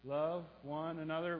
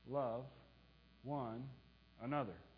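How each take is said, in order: First: The phrase is spoken faster still. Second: The phrase is spoken at a moderate pace.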